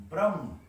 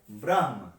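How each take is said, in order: First: ब्रह्म said as brəm with the h dropped; everyday brəm for ब्रह्म; changed pronunciation. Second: ब्रह्म said carefully as braɦm, the h before the m; careful correct braɦm for ब्रह्म; correct pronunciation. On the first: Teacher shows students how ब्रह्म changes in speech, relaxed. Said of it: "यहाँ पे बाद में यही बन जाता है". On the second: Teacher shows students the pure pronunciation of ब्रह्म, carefully. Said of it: "इसका सही शुद्ध उच्चारण है". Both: Shown as a demonstration.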